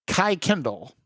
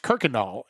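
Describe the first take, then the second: First: Kai Kendall, KY-KEN-dəl with a long I; memo's version, Kai Kendall like sky plus kendle; mistaken pronunciation. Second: Kirkendall said as KER-kən-dawl; locals' Kirkendall, KER-kən-dawl; local pronunciation. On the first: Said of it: "we were pronouncing it wrong". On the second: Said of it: "it is pronounced Kirkendall". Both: Shown as a demonstration.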